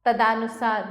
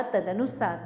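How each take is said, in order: First: तदानुसार with long aa after d; तदानुसार as ta-daa-nusaar. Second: Said in the usual way. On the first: Shown as a demonstration. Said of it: "तदानुसार नहीं होता". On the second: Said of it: "तदनुसार होता है".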